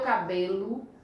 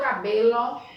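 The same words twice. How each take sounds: First: The final vowel sounds like a U. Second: The final vowel sounds like a clear O. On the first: The speaker calls it right. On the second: The speaker calls it wrong.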